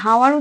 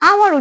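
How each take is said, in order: First: The word begins with an audible h sound. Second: The word begins directly with a vowel sound. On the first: The speaker calls it wrong. "এটাকে আমরা হাওয়ার উচ্চারণ করি না" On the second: The speaker calls it right. "আওয়ার উচ্চারণ করি"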